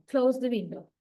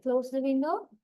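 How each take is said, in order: First: "window" falling at the end; falling command intonation. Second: "window" rising at the end, like a question; rising intonation. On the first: Teacher showing students a full command, "window" falling. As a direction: command it, pitch dropping on "window". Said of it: "give the full impression of a command". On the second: Teacher showing a command without its force, "window" rising. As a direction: let the pitch climb on "window". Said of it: "folding your fish level". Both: Shown as a demonstration.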